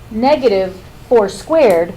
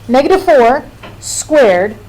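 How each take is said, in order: First: There is a pause after 'negative', before 'four'. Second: There is a pause after 'four', before 'squared'. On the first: Only the four is squared, then made negative. "means take the negative of whatever you get when you do four times four" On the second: The whole negative number is squared. "means negative four times negative four"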